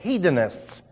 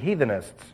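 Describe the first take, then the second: First: The middle consonant is a 'd' sound. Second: The middle consonant is a 'th' sound. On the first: The speaker calls it right. "No, it's hedonists. H-E-D-O-N-I-S-T-S" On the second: The speaker calls it wrong. "It should be heathenists"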